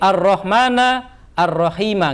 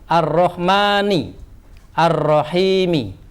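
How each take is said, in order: First: Both words end with an 'a' vowel. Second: Both words end with an 'i' vowel. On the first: The speaker calls it wrong. "enggak boleh" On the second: The speaker calls it right. "jirnya sama karena mufrad yaitu dibaca kasroh"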